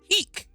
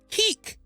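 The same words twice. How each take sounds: First: It is said mimicking another person's voice. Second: It is said in the speaker's ordinary voice.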